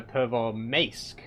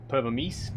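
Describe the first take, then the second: First: Pervomaisk ending in a long "mace-k"; slow Pervomaisk with an "ay" in the last syllable; A sound. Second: Pervomisk ending in "meesk"; questioning Pervomisk with an "ee" sound. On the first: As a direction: stretch Pervomaisk out as per-vo-maysk. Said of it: "Like more of an A sound?". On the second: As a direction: say the last vowel of Pervomisk as "ee". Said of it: "Or E?". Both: Shown as a demonstration.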